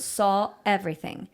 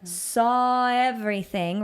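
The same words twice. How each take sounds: First: Everything starts with a sharp glottal catch. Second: Saw flows smoothly into everything without a break. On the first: The speaker calls it wrong. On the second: The speaker calls it right.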